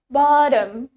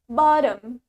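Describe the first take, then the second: First: It is said in an American accent. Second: The same.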